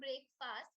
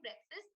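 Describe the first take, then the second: First: Both vowels are said fully, like two words. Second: The vowels are reduced to quick, weak sounds. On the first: The speaker calls it wrong. "Now that's not break fast" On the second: The speaker calls it right. "You're just saying breakfast uh, without pronouncing any of the vowels in the word"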